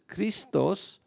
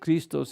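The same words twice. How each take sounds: First: It is pronounced with Greek sounds. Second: It is pronounced with English sounds. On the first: "the Greek is Christos" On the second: "here in uh, anglicized"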